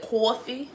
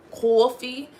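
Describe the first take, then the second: First: Drawn-out New York coffee, pitched up; New York accent. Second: Louder New York coffee, pitched up; New York accent. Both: Retold or imitated. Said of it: "when they be like".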